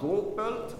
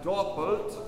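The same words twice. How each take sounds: First: The first vowel is a closed o. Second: The first vowel is an open o. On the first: The speaker calls it wrong. "Not doppelt" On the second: The speaker calls it right. "So it's an open O"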